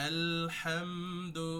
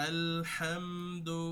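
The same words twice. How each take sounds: Both takes have the same delivery.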